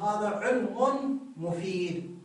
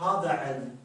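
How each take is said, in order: First: علم ends in -un, flowing into مفيد; connected form with tanween. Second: علم stops dead on the m; pausal form without tanween. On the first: Teacher shows reading without a stop, tanween clearly pronounced. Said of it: "في حالة الوصل يقول". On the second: Teacher shows stopping on the word, tanween dropped. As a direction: end علم on m, no -un ending. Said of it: "في حالة الوقف". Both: Shown as a demonstration.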